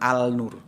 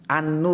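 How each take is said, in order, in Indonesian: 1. Bunyi l pada artikel jelas dilafalkan sebelum n. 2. Bunyi l pada artikel menyatu dengan n yang mengikutinya. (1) "bukan Al-Nur" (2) "An-Nur ya"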